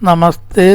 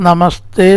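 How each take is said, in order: No difference in how they are said.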